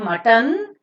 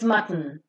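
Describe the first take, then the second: First: A vowel is sounded before the final n. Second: The final n is syllabic with no vowel. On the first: The speaker calls it wrong. "It is not mutton" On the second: The speaker calls it right. "it's mutton"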